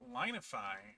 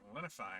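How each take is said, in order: First: The first syllable sounds like the word 'line'. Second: The first syllable has a short 'lin' sound.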